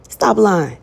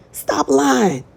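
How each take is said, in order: First: Loud, falling scold; loud preacher's rebuke; firm stop lying. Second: Much higher, exasperated repeat; high-pitched mock disbelief; incredulous stop lying. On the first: Acted. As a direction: call them out, firm and flat. Calling out a liar. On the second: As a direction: throw it back in disbelief. Calling out a liar, repeated.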